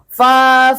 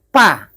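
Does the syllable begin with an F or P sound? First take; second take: F; P. First: It starts with a hissing f, breath escaping. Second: It starts with a closed p, no hiss. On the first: The speaker calls it right. "Atau dia mengucapkan benar" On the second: The speaker calls it wrong. "kalau ada yang mengucapkan macam ini, pa, salah ya"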